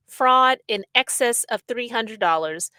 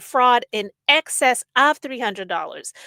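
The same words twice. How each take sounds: First: Said in the usual way. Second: "excess of" hit louder, word by word; pointed emphasis. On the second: Shown as a demonstration. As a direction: lean hard on "excess of" to set it straight. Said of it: "I need people to get the story straight".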